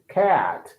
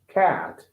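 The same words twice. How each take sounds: First: The vowel is long, in an American accent. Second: The same.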